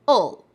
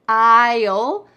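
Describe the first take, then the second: First: It is said quickly and reduced. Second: It is said clearly and fully.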